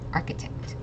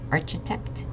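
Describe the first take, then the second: First: The middle consonant is a hard k sound. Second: The middle consonant is a soft ch sound. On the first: The speaker calls it right. "make a hard K sound" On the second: The speaker calls it wrong. "It's not architect"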